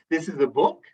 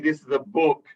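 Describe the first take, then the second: First: The voice rises on the last word. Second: The voice falls on the last word. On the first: It is asked as a question. "We can either go up and make it a question" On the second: It is given as a command. "we can come down on the last word"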